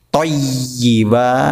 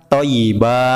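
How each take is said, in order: First: The Y sound is doubled and held. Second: The Y sound is single and short. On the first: The speaker calls it right. "ada tasdidnya" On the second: The speaker calls it wrong. "bukan thayyiba. Salah"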